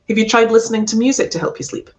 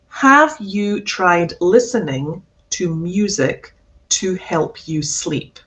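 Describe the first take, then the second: First: It is said quickly, with words run together. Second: It is said slowly, every word and vowel clear. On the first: "if I say that sentence quickly, it's going to sound like this" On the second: "if I say this sentence slowly, it would sound like this"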